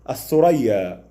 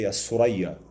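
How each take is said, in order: First: The word is said with a th sound. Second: The word is said without a th sound. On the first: "we do not say" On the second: "in the Egyptian accent, for example, we say"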